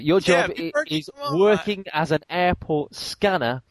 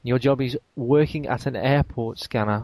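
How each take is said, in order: First: It is read in a perky, energetic way. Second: It is read in a flat, low-energy way. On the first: The speaker calls it right. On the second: The speaker calls it wrong.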